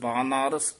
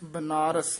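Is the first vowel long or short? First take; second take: long; short. First: The first vowel is long. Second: The first vowel is short. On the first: The speaker calls it right. "ਕੰਨੇ ਦੋਵੇਂ ਲਾ ਕੇ" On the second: The speaker calls it wrong. "ਬਨਾਰਸ ਨਹੀਂ ਕਹਿਣਾ"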